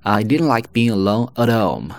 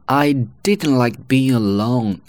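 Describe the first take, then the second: First: "at home" joined as uh-dome, h dropped; higher-pitched sentence flowing into a linked "at home"; linked weak form. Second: Slow, higher voice with "At" set apart from home; careful word by word, full vowel in "At"; full form. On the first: Teacher showing the whole sentence linked up, reduced "at home". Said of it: "连接起来". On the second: Teacher presenting the second sentence, slow careful "At home". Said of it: "本来是at home". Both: Shown as a demonstration.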